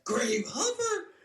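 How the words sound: It is said in a high-pitched voice.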